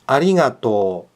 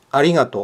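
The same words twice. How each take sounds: First: The final o sound is long. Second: The final o sound is short. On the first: The speaker calls it right. "Yang benar" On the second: The speaker calls it wrong. "bukan juga arigato"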